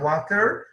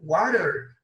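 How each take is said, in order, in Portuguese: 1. É pronunciada com sotaque britânico. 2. É pronunciada com sotaque americano. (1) "sentido britânico"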